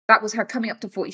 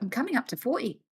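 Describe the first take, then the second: First: Said in the usual way. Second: Lightly voiced mom, quick and airy; imitating mom. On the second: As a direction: toss it off like mom playing older.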